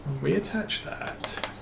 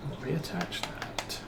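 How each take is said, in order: First: Said in the usual way. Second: Whispered, much softer; under his breath. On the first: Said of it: "muttering to himself at the machine". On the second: Real, not acted. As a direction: repeat it in a whisper to yourself. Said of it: "repeats it under his breath".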